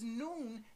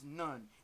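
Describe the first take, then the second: First: The vowel is a long oo sound. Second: The vowel is a short uh sound. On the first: The speaker calls it right. "That word is noon" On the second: The speaker calls it wrong. "that we pronounce none"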